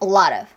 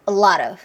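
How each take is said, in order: First: The t is hard and the words are separate. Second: The t becomes a light flap, words linked. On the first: The speaker calls it wrong. "라트 오브를 기대하고 있으면 안 들려요" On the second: The speaker calls it right. "flat t. 그래서 리을 소리가 나옵니다"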